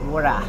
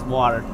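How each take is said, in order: First: It is said in an Australian accent. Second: It is said in an American accent. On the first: "for Australian accents" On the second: "American accent, which is water"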